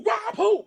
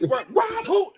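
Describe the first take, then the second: First: High, sharp disbelief; mock tough guys scoffing at a threat; mock incredulous. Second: High, loud disbelieving repeat; repeating the scoff louder; mock incredulous. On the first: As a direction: toss it back like the idea is absurd. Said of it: "Me, Huck, and Joe go". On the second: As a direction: fire it back, scoffing.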